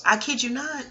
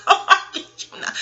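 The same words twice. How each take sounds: First: Said in the usual way. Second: Higher, louder, slow and laughing; loud laughing insistence. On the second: Real, not acted. Swearing to viewers it's true, laughing loudly. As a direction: laugh it out emphatically.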